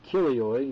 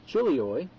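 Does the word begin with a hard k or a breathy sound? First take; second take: hard k; breathy. First: The word begins with a hard k sound. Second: The word begins with a breathy ch sound. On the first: "others would say, no, you're wrong, it's kilioi" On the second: "I prefer to say chilioi"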